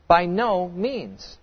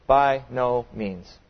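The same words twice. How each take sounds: First: Slow, heavy "By no means"; a firm, deliberate "By no means"; emphatic denial. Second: Slow, softer "By no means"; a quiet, deliberate "By no means"; emphatic denial. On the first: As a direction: lean on every word of "By no means". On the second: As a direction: drop the voice and slow each word of "By no means". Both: Acted. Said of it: "Paul will emphatically answer".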